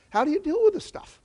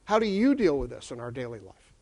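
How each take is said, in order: First: Asked much higher, rising at the end; high rising question. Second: Asked much lower, falling to the end; low falling question. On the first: Lecturer pushing the audience, question pitched high and rising. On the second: Lecturer bringing the question home, low and falling. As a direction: drop it low and let it settle. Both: Shown as a demonstration.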